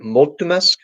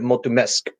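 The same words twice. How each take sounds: First: Mulțumesc stressed on MUL, rising as a question; MUL-țu-mesc, questioning lift at the end; stress on first syllable. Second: Mulțumesc with the weight on MESC; mul-țu-MESC, last beat strongest; stress on last syllable. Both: Shown as a demonstration. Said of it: "syllable is the accent on".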